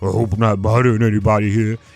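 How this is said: The voice sounds altered by a voice changer. "so you got this voice changer"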